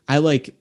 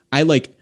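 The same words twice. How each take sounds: The two takes are said the same way.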